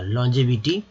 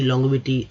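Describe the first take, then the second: First: The middle consonant is a soft j sound. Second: The middle consonant is a hard g sound. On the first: The speaker calls it right. "जी का उच्चारण जो है दोस्तों ज के रूप में हो रहा है" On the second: The speaker calls it wrong. "ग के रूप में नहीं करना है"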